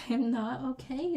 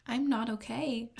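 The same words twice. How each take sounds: First: Laughing while repeating it, a bit higher. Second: Said in the usual way. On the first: Real, not acted. Overwhelmed by the music, laughing. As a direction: giggle through the words.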